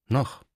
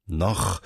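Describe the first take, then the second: First: NOCH as a short, higher question; questioning echo. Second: NOCH lower and falling, understated dismay; startled echo. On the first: Cardinal picking up his aide's word, questioning echo. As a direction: toss back NOCH with a questioning lift. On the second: Aide taken aback by the cardinal's remark, mildly startled. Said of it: "rief Fumagalli erschrocken". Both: A narrator's reading.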